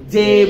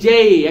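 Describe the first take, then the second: First: The vowel is a plain short e sound. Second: The vowel glides from e to ee. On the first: The speaker calls it wrong. "আমরা বেশিরভাগ বলি জে ... হয় না" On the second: The speaker calls it right. "সঠিক কি হবে জেই"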